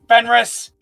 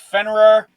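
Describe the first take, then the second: First: The name ends with an S sound. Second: The name ends with an R sound. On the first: The speaker calls it wrong. "It's not Fenris" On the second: The speaker calls it right. "It's Fenrir"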